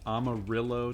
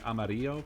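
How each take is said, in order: First: The double L is said the English way. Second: The double L is said the Spanish way. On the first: This is the pronunciation people corrected them to. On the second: This is the pronunciation that matches the name's origin.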